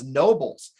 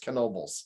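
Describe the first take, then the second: First: The name begins with an N sound, no K. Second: The name begins with an audible K sound. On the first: This is how most locals say the name. "They don't pronounce the K" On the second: This is how the company says its own name. "we did the K just to uh, emphasize we do"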